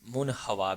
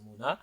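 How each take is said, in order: First: The middle h sound is clearly pronounced. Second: The middle h sound is dropped in fast speech. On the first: "मुन हवा भी कह देते हैं" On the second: "direct speed से बोला जाएगा तो मुना कहेंगे"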